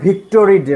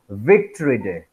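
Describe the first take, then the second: First: The word begins with a 'bh'-like sound. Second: The word begins with a 'v' sound. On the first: This is how local speakers say it. "You you call it Victory Day" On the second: This is how native English speakers say it. "the native people pronounce it like Victory Day"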